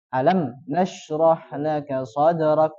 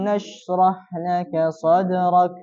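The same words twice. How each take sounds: First: Slow, m in Alam flowing evenly; mim not held back. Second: Slow, the m in alam flows briefly; flowing mim. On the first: Teacher showing the mim must not be held. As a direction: let the m in Alam flow, not stopped. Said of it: "Tidak boleh juga tertahan". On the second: Teacher showing the correct mim flow. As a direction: let the m glide into nashrah, slowly. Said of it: "tidak boleh terlalu panjang". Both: Shown as a demonstration.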